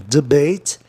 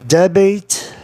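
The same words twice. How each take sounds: First: "debate" stressed on the second syllable; "debate" with weak first syllable; corrected stress. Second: "Debate" stressed on the first syllable; "Debate" with open e up front; mistaken stress. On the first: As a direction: say "debate" as de-BATE. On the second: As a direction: say "Debate" as DEB-ate. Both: Shown as a demonstration. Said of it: "Olha, perdão".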